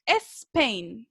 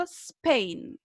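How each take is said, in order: First: Spain mispronounced with an E in front, es-PAIN; wrong initial E. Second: Spain starting directly on a hissed S, no E; correct initial S. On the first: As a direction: add an eh before the S of Spain. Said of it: "Para que no cometan el error". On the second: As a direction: say Spain as sss-pain. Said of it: "No, ¿cierto?". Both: Shown as a demonstration.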